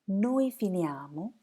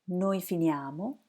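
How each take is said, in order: No difference in how they are said.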